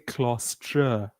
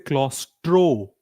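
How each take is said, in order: First: The word ends with an 'ah' vowel. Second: The word ends with an 'oh' vowel. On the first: The speaker calls it right. "we say claustra" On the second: The speaker calls it wrong. "We don't say claustro"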